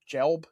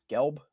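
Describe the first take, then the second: First: "Gelb" with a soft G, as in gem. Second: "Gelb" with a hard G, as in get. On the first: Co-host checking a surname, "Gelb" with soft G. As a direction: say "Gelb" like Jelb, questioningly. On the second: Co-host checking a surname, "Gelb" with hard G. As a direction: start "Gelb" with a g as in go. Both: Shown as a demonstration. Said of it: "how do you say his name?".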